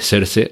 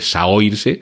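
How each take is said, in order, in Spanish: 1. El nombre suena como 'Sersha'. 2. El nombre se lee tal como está escrito. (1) "se dice Saoirse" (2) "en lugar de Saoirse"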